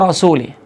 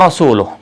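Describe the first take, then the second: First: The word ends with an i vowel sound. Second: The word ends with a u vowel sound. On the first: God disowns the Messenger too. The speaker calls it wrong. "kata Rasul dibaca dengan kasrah" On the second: The Messenger also disowns the idolaters. The speaker calls it right. "Itu mana ayat yang sebenarnya"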